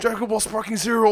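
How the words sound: It is said in an excited tone.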